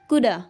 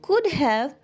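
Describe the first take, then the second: First: The word 'have' is reduced to a weak 'a'. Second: The word 'have' is pronounced in full. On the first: "we can say coulda" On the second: "instead of saying could have"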